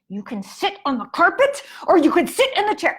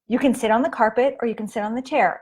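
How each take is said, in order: First: It sounds frustrated and out of control. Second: It sounds calm and controlled, after a breath.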